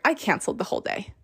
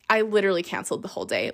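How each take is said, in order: First: Whispered confession. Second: Rushed statement. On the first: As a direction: drop to a whisper for the punchline. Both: Shown as a demonstration.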